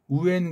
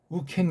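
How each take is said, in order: First: The two vowels join with no consonant between. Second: A k sound links the two vowels. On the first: "우엔 그래도 되는데" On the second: "우켄 그런 이렇게 군더더기를 넣은 거예요"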